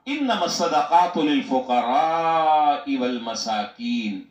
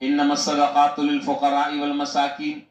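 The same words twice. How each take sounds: First: The vowel in fuqara is held long. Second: The vowel in fuqara is kept short. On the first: The speaker calls it right. "लिल फुकरा पर मत कर कर पढ़ा और आपने यूं पढ़ा" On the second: The speaker calls it wrong. "तुम बगैर मत के पढ़ रहे हो"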